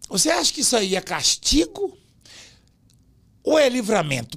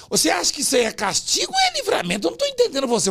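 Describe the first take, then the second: First: Said in the usual way. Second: Higher, puzzled imitation of the interviewer; mock confused interviewer. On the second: Retelling how the reporter got confused, in a higher mock voice. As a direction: play the baffled reporter, pitched up. Ficou enrolado.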